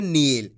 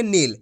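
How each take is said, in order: First: नील with the ee stretched long; drawn-out long ee. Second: नील said as a quick "nil"; short i. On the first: Teacher reads the long matra, vowel drawn out. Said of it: "तो खींच के पढ़ेंगे". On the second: Teacher reads the short matra, vowel short. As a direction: keep the i in नील brief. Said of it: "यहाँ पे छोटी ई की मात्रा". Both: Shown as a demonstration.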